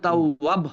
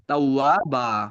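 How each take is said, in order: First: The word ends abruptly on a b sound. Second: The word ends on a long a vowel. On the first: The speaker calls it wrong. "এটা কিন্তু তাও ওয়াব হবে না" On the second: The speaker calls it right. "ওয়াকফের সময় হয়ে যাবে তাও ওয়া বা"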